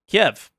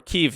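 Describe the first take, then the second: First: The name is said the older way, Kiev. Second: The name is said the newer way, Kyiv. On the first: The speaker calls it wrong. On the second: The speaker calls it right.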